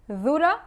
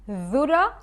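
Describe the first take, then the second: Both takes have the same delivery.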